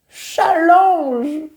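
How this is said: It is said with a French accent.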